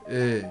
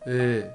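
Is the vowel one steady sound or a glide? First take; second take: steady sound; steady sound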